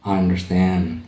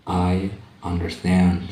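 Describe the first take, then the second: First: Said in the usual way. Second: Stretched out, each word clear; slow teacher demo; slow model phrase. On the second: Shown as a demonstration. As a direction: say it slowly for students to copy. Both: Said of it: "Saya mengerti".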